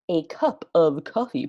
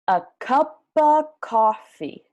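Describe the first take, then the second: First: Each word of 'cup of' is said separately. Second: 'Cup of' is blended into 'cuppa'. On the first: The speaker calls it wrong. "Wait, don't say that" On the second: The speaker calls it right. "A cuppa"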